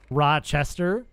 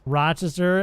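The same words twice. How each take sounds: First: "Rochester" said as others say it, with a clear "chest" in the middle; other people's Rochester. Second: "Rochester" said his way, first syllable "Rah", ending in a rising tone; his own Rochester. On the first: Streamer mimicking how other people say Rochester, with a clear "chest". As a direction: say "Rochester" with a full "chest" sound. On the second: Streamer showing chat his Rochester pronunciation, rah-chuh-ster. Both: Shown as a demonstration. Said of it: "as opposed to other people who say".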